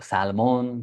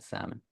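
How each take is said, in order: First: The L sound is clearly pronounced. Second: The L sound is left out entirely. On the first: The speaker calls it wrong. "they must pronounce the L. So salmon" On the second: The speaker calls it right. "we say salmon, just like that"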